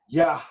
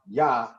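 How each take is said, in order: First: The word ends with an audible breathy h. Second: The word ends cleanly on the vowel. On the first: The speaker calls it right. "this tells you to pronounce the hey" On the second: The speaker calls it wrong. "not just say ya"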